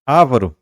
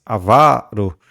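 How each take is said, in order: First: Avaro stressed on the first syllable, A-va-ro; wrong stress. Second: Avaro slowly stressed on the middle syllable, a-VA-ro; correct stress, slowly. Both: Shown as a demonstration. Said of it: "Não é avaro, mas avaro".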